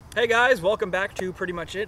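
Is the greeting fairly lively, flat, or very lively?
flat. It is said flatly, without enthusiasm.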